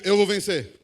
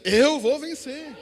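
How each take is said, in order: First: Loud call for the congregation to echo; loud, at normal pitch and pace; declaration to repeat. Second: High, loud, drawn-out proclamation; rousing pulpit declaration, slow and raised; declared with faith. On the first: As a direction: lead them in a firm, loud declaration. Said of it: "Então diga assim comigo". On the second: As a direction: stretch it out loudly as a cry of faith. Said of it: "Diga com fé aí". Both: Shown as a demonstration.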